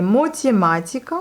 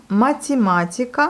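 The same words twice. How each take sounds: First: "mathématiques" Russian-style, opening on "mo"; wrong first vowel. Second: "mathématiques" Russian-style, opening on "ma"; Russian pronunciation. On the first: Teacher reads out the option that fails, wrong first vowel. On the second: Teacher tries the likelier option, Russian pronunciation. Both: Shown as a demonstration. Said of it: "ça va pas".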